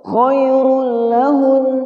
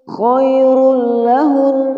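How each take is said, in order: The two takes are said the same way.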